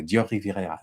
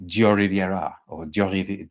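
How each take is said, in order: First: 'Dior Riviera' said with French rolled R's in a light French accent; French R's through 'Dior Riviera', self-conscious; dodgy French accent. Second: Halting French accent attempt, lightly done; French accent try. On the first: Vlogger trying the perfume name the French way, a dodgy French accent. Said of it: "My French accent is dodgy". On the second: Vlogger attempting the perfume name in a French accent, hesitant. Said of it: "works with a French accent". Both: Shown as a demonstration.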